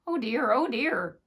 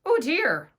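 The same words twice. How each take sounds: First: Sighing. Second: Higher, louder sighing cry; sighing lament. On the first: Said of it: "little Klaus sighed in the sack". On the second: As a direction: lament from inside the sack. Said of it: "little Klaus sighed". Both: A narrator's reading.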